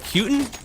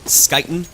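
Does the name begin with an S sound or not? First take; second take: no S; S sound. First: The name begins without an S sound. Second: The name begins with an S sound. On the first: The speaker calls it right. "that is what three or four Swedish people have told me to pronounce it" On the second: The speaker calls it wrong. "it's not Skyten"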